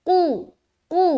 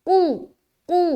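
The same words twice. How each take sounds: No difference in how they are said.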